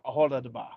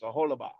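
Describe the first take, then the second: First: A 'duh' syllable comes before the last syllable. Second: No 'duh' syllable comes before the last syllable. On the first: The speaker calls it wrong. "not a hola de ba" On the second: The speaker calls it right. "it's a hola ba"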